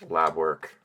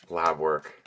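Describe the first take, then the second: The two takes are said the same way.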